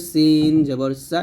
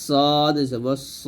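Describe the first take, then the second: First: Light s with open a in "সিন জবর সা"; thin sin. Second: Slow, heavy s with rounded o in "সদ জবর স"; thick sad. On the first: Teacher contrasting sin with sad, lightly pronounced "সিন জবর সা". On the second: Teacher contrasting sad with sin, heavily pronounced "সদ জবর স". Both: Shown as a demonstration. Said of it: "মোটো হবে".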